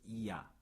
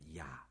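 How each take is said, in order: First: Two vowels are said slowly as separate sounds. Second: Two vowels are said quickly as one glide.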